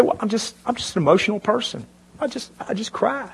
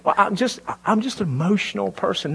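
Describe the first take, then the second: First: Higher, softer mock weepy whine; mock teary whine. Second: Higher, softer put-on weepy voice; mock teary whine. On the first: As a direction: imitate a woman turning on tears, high and soft. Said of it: "You say". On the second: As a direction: whimper it like staged tears, high and soft. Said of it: "turn it on and off like a water faucet".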